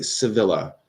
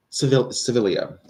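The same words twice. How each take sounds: First: "Sevilla" said suh-VIL-uh; L pronounced. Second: "Sevilla" said suh-VIL-ee-uh; extra syllable. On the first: Streamer turns to next viewer, "Sevilla" as suh-VIL-uh. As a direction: end "Sevilla" in a plain -luh. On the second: Streamer retries viewer's name, "Sevilla" as suh-VIL-ee-uh. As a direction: correct "Sevilla" to end in -lee-uh. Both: Real, not acted. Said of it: "I don't know how it's".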